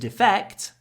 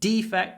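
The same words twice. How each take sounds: First: The stress is on the second syllable. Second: The stress is on the first syllable. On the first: It is a verb meaning to desert one's country. "To defect, the stress is on the second syllable" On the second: It is a noun meaning a flaw. "the noun, defect, stress on the first syllable"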